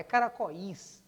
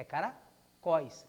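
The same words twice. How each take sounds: First: "caracóis" broken as ca-ra-co-ÍS, with a strong separate I; wrong split pronunciation. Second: "caracóis" slowed, cara-CÓIS, open Ó gliding into weak I; correct diphthong pronunciation. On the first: Teacher showing students the wrong hiatus, "caracóis" with a strong separate I. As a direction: stress the final I of "caracóis" as its own syllable. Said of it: "porque ele é fraco, não é caracóis".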